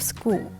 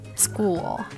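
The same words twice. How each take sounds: First: The final L sound is left out. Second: A clear dark L ends the word. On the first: The speaker calls it wrong. "instead of school" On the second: The speaker calls it right. "Don't simply omit this sound"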